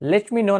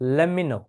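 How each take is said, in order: First: Each word is pronounced fully and separately. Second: The words are reduced and run together. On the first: "লেট মি নো না বলে" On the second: "আপনি বলতে পারেন"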